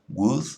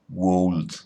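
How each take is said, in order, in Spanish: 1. El sonido de la L se omite en la palabra. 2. La L se pronuncia en la palabra. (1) "esa L no se pronuncia" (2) "No decimos would"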